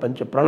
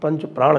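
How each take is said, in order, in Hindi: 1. दूसरे शब्द में छोटा स्वर है। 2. दूसरे शब्द में लंबा 'aa' स्वर है। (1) "आज बिल्कुल शुद्ध उच्चारण किया" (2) "वो पंच प्राण बोले थे उस बार"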